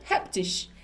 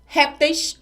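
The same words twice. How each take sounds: First: "répteis" as the alternative form reptis, stressed at the end; second plural form. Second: RÉPTEIS stressed on the first syllable; first plural form. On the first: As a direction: stress the last syllable of "répteis", like rep-TIS. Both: Shown as a demonstration. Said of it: "duas formas diferentes".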